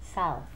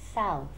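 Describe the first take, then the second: First: The vowel is said with a wide-open mouth. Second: The vowel is said with a wide-open mouth.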